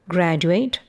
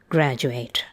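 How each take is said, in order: First: The d is followed by a separate y sound. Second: The d and y merge into a j sound. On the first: "formal, extremely careful forms" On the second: "everyday forms"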